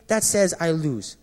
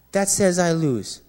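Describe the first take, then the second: First: Said in the usual way. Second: "says" leaned on, slow and heavy, a weighty pause-laden repeat; slow weighted repeat. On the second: Real, not acted. Preacher repeating his confession to the congregation, slow, stressing "says". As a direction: let "says" land slowly, each word weighed.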